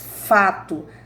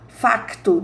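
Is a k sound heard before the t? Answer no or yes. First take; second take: no; yes. First: No k sound is said before the t. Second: A k sound is said before the t. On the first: This is how people in Brazil say it. "Nós sempre falamos fato" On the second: This is how people in Portugal say it. "Lá em Portugal, eles falam muito assim"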